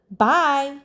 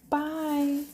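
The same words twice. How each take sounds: First: Firm, louder bye; assertive toddler. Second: Higher, drawn-out little bye; toddler's bye. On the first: Mom imitating her daughter at the door, assertive. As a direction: imitate a little kid announcing bye with force. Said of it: "Like, assertive now". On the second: Mom imitating her daughter after a sigh, gentle toddler voice. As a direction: imitate a small child's long, easy bye. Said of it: "And she's like". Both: Retold or imitated.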